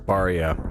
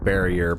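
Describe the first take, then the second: First: Pronounced the Japanese way, as baria. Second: Pronounced the English way, as barrier. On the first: "which in Japanese is Baria"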